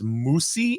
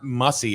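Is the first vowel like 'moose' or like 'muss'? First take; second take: moose; muss. First: The first vowel sounds like 'moose'. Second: The first vowel sounds like 'muss'. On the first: The speaker calls it right. "It's Moosey" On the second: The speaker calls it wrong. "Not Mussy"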